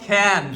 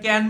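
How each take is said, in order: First: The first k sound has a puff of breath. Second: The first k sound is plain, without breath. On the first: The speaker calls it right. "এখন থেকে বলবো ক্যান" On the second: The speaker calls it wrong. "আর ক্যান বলবো না"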